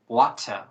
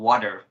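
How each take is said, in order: First: It is said with a British English accent. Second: It is said with an American English accent. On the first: "in British that's called water" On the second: "the American English that's called water"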